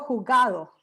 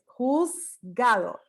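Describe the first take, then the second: First: The s sound in the middle is dropped. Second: The s sound in the middle is pronounced. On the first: This is how it comes out in everyday talk. "Yo digo jugado. ¿Dónde está la Z?" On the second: This is how it comes out when said deliberately. "Porque es un sonido de S"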